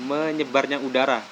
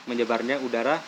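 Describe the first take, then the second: No difference in how they are said.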